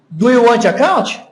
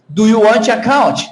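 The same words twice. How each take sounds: No difference in how they are said.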